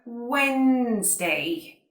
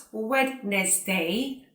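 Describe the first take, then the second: First: Slow "Wednesday" as wenz-day, silent d; two syllables in "Wednesday", drawn out slowly: wennnz-day; correct Wednesday. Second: "Wednesday" sounded as spelt, wed-nes-day; three syllables in "Wednesday", voicing the d; mispronounced Wednesday. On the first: Teacher correcting the error, slow "Wednesday" as wenz-day. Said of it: "but Wednesday". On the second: Teacher showing learners the common error, "Wednesday" as wed-nes-day. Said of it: "It is not Wednesday". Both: Shown as a demonstration.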